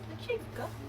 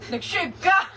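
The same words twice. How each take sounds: First: It sounds disappointed and let down. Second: It sounds supportive and cheering.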